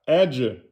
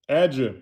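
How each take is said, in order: No difference in how they are said.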